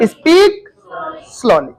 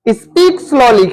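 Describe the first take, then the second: First: Said in the usual way. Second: Drawn out very slowly, word by word; slow demo. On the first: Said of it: "क्या बोलेंगे?". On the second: Shown as a demonstration. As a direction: stretch each word out to show slowly. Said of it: "धीरे से बोलो".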